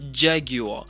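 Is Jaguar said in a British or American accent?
British. It is said in a British accent.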